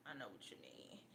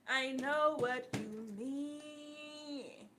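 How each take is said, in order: First: Sighed whisper of sympathy. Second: Slow drawn-out. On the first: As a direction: whisper it with a sigh. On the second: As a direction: stretch each word out slowly. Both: Real, not acted.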